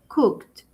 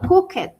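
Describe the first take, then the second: First: The ending is a short 't' sound. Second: The ending is an extra 'ed' syllable. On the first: The speaker calls it right. "es cooked, con T" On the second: The speaker calls it wrong. "yo no digo cooked, que muchas veces podríamos pensar que porque tiene ed"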